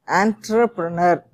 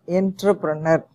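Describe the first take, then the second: First: The first syllable sounds like 'ant'. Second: The first syllable does not sound like 'ant'. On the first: The speaker calls it right. "we have to pronounce it as entrepreneur" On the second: The speaker calls it wrong. "not entrepreneur"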